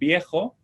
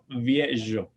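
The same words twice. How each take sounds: First: The first sound is made with both lips. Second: The first sound uses upper teeth on lower lip. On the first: This is the modern Spanish pronunciation. "en español viejo" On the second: This is the Ladino pronunciation.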